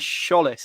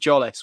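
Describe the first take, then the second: First: The name begins with an SH sound. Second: The name begins with a J sound. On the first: The speaker calls it right. "It's an S C H, isn't it? ... sure, that sort of noise" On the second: The speaker calls it wrong. "rather than sort of a Jollis, which I had been going with"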